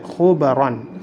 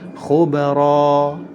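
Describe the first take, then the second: First: The word ends with an n sound. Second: The word ends with a long a. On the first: The speaker calls it wrong. "Tidak boleh dibaca khubaron" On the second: The speaker calls it right. "dirubah menjadi fathah biasa dan dipanjangkan dua harokat"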